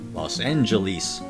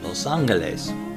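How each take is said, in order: First: It ends with a long E sound. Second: It has an O vowel and a hard G. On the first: "In old movies, I'll often hear it pronounced Los Angeles, with the distinctive long E towards the end" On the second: "Spoken correctly in Spanish, with an O sound in the los and an hard, well, kind of hard G"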